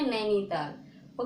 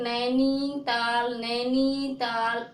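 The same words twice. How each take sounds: First: Said in the usual way. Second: नैनीताल very slow, नी and ता held long; wrong drawn-out vowels. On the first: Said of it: "कैसे बोलते हैं". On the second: Shown as a demonstration. Teacher showing students how not to say नैनीताल, dragged out. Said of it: "ऐसे नहीं बोलते".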